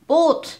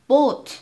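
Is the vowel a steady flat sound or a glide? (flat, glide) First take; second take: flat; flat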